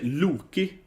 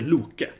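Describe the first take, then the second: First: The final vowel is an 'ee' sound. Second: The final vowel is an 'eh' sound. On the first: This is the English form of the name. "in English you say Loki" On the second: This is the Swedish form of the name. "as a kid, I would say Loke"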